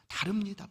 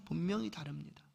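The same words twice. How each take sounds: First: Said in the usual way. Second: 분명히 leaned on, then a softer 다릅니다; hushed emphasis on 분명히; stress on 분명히. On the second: Shown as a demonstration. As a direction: press 분명히 quietly and firmly.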